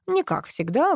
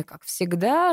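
First: Не lifted sharply high; stress on не. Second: Said in the usual way. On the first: Shown as a demonstration. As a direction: punch не before как всегда.

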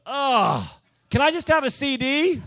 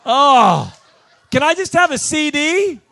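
First: A mock whiny ask, higher and louder; pushy fan begging the preacher for a CD, mock whiny plea; whiny lady asking. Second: Much higher, much louder hammed-up disgusted whine, with a laugh; mock her disgust, dripping with contempt; disgusted plea. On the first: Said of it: "She goes". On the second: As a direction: fan sighing in disgust at the preacher, exaggerated whine. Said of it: "and disgust".

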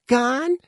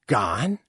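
First: Put-on very high, small child's voice; whimpering child. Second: Lightly voiced questioning mother; a short, rising question of mild disbelief; surprised mother. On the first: Child learning mother has gone, high whimper. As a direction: whimper it as a rising question. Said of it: "the Scrap whimpered". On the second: Mother hearing someone has left, mildly puzzled question. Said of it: "said Ma'am". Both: A narrator's reading.

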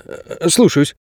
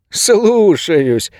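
First: Hesitant, higher submissive reply; meek obedience. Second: High, drawn-out parody of obedience; mocking mimicry. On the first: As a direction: give in to the boss after a small stumble. Guard submits to boss on phone. (покорно, с запинкой) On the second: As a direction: ape a meek underling, stretching the word. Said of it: "передразнил охранник Ингу". (передразнивая, высоко и протяжно) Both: A narrator's reading.

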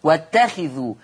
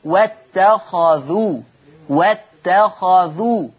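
First: "واتخذوا" with kasra on the kha, "wattakhidhu"; Hafs reading. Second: Slow "واتخذوا" with fatha on the kha, "wattakhadhu"; Warsh reading. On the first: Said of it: "حفص بيقرأ بكسر الخاء". ("واتخذوا" بكسر الخاء كقراءة حفص) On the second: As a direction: draw out "واتخذوا" with an open kha. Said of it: "ورش يقرأ بفتح الخاء". ("واتخذوا" بفتح الخاء كقراءة ورش) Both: Shown as a demonstration.

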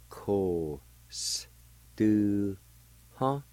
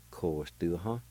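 First: "Ko, s, tu, ha" in separate held sounds; syllable by syllable. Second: "Ko, s, tu, ha" run together as one word; joined-up pronunciation. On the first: Teacher showing learners the word, "Ko, s, tu, ha" slowly broken up. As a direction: sound out "Ko, s, tu, ha" with a gap after each piece. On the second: Teacher putting the word together for learners, "Ko, s, tu, ha" joined up. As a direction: say "Ko, s, tu, ha" with hardly a gap. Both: Shown as a demonstration. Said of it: "It's pronounced like this".

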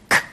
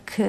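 First: "K" popped in the throat with a little breath after it; glottalized k. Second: Said in the usual way. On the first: Shown as a demonstration. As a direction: spit out "K" as a glottal ejective with a puff. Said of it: "glottalizowane z takim przydechem trochę". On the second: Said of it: "mogą być podobne do naszych".

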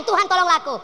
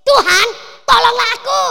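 First: Said in the usual way. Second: Loud high cry for help; desperate cry. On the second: Acted. Woman crying out to Jesus, high and loud. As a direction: shout up a desperate plea. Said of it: "Dan dia berkata kepada Yesus".

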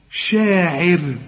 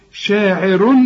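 First: شاعر drawn slowly with a light r; شاعر held long, r not heavy; thin raa. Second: شاعر ending in a full ru, louder; شاعر with a thick r when joined; heavy raa. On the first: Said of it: "شوف الراء دي". (شاعر بترقيق الراء عند الوقف) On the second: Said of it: "عند الوصل مفخمة". (شاعر بتفخيم الراء عند الوصل) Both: Shown as a demonstration.

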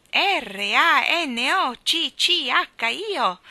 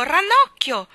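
First: Slow loud drawn-out call; long loud howling call; name drawn out. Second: Short loud high yell of Ranocchio!; quick loud shout of Ranocchio!; yelled name. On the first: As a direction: stretch R A N O C C H I O out loud and slow like the wind. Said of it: "gridavano quel nome". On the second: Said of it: "urlò Michael". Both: Acted.

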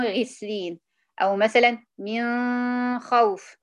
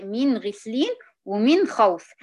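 First: "من غسلين" and "من خوف" slow, the noon nasalised and hidden; wrong demo: "من خوف" with a hidden noon. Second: "من غسلين ومن خوف" slow, every noon sounded clearly. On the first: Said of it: "تلاقي معظم الناس بتقول". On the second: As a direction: say the noon of "ومن" plainly before the خ. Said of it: "لا، هي". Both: Shown as a demonstration.

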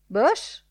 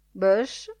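First: "Bush" higher and louder, rising as a suggestion; "Bush" lifted up, offering it; offered name. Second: "Bush?" louder with a questioning rise; "Bush?" rising, doubting the name; doubtful question. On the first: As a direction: put "Bush" forward as a proposal. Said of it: "disse Gegeo Molloy". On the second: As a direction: echo "Bush?" in disbelief. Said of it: "disse il direttore". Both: A narrator's reading.

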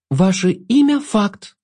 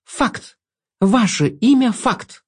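First: Slow, pressed stress on «имя»; emphatic repeat. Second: Slow, emphatic stress on «имя»; «имя» stretched and pressed, «факт» falling; firm repeat. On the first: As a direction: lean hard on «имя», then fall on «факт». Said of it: "для пущей убедительности повторила". (с нажимом на «имя») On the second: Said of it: "и повторила". (твёрдо, с нажимом на «имя») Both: Acted.

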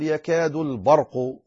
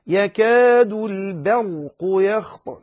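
First: Thick, dark B in البرق; wrong heavy ba. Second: Slow, thin B in البرق before heavy ر; light ba. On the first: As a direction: let the heavy ر darken ب in البرق. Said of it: "يغلط فيفخم". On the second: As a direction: stretch يكاد, keep ب of البرق light. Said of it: "لا تقل يكاد البرق". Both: Shown as a demonstration.

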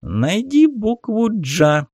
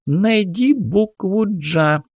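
First: High slow squeaky toy voice, teasing; cartoon voice. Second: High slow squeaky toy voice; squeaky cartoon voice. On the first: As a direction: prod like a cheerful kids' toy. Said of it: "подначал мультяшный голос". (мультяшный дразнящий голос) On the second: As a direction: chirp it like a kids' learning toy. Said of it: "писклявым мультяшным голосом". (писклявый мультяшный голос) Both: A narrator's reading.

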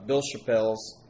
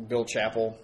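First: CHAPPELLE'S with the stress on the second syllable; unsure surname pronunciation. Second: CHAPPELL with the stress on the first syllable; alternative surname pronunciation. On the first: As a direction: say Chappelle's as shuh-PELZ. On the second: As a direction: say Chappell as CHAP-ul. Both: Real, not acted. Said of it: "don't actually know how to pronounce".

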